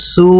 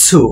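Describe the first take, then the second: First: সু with only an s at the start; সু on a pure s, not ts; plain su sound. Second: সু said as "tsu", with a t before the s; সু set apart with a clear ts onset; tsu sound. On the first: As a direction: show the mistaken সু as "su", no t before it. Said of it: "এটা সু না". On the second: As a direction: give the correct সু, released from the ta position. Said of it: "এটা হচ্ছে". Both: Shown as a demonstration.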